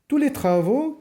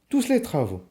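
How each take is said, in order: First: The final S of tous is silent. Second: The final S of tous is pronounced. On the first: The speaker calls it right. "on dit" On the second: The speaker calls it wrong. "non pas"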